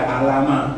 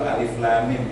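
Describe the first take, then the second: First: The letters are blended into one short word. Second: Each letter is said by its full name. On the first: The speaker calls it wrong. "jangan dibaca alama" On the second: The speaker calls it right. "kalau baca Al-Baqarah di awal itu alif lam mim"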